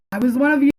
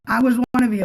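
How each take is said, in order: First: "you" hit hard at the end, loud and raised; stress on you. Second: "was" pushed, falling tune after it, loud; stress on was. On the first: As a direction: land on the word "you", louder and higher. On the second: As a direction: lean on "was" and let it fall. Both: Shown as a demonstration.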